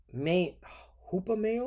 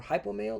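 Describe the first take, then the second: First: "hupomeo" begun with a hoo sound; guessed pronunciation. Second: "hypomeo" begun like English high-po; guessed pronunciation. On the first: Preacher guessing at a Greek word, unsure pronunciation. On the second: Preacher weighing another reading of the Greek, guessed pronunciation. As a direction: try "hypomeo" with high at the start. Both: Shown as a demonstration. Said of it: "let's see how Esau pronounces it".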